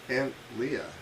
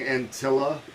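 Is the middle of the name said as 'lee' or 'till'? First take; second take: lee; till. First: The name is said with a 'lee' sound. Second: The name is said with a 'till' sound. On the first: The speaker calls it right. "it's Aunt Leah" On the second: The speaker calls it wrong. "I've been saying Antilla for a year now"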